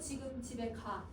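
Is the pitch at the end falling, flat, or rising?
flat. The ending is drawn out and stays level. It is a command. "선생님 말끝을 쭉 뺐어. 명령은 평탄하게 이야기를 해요"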